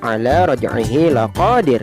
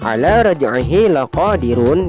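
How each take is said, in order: First: The last word ends on a bare consonant. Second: The last word ends with its full vowel ending.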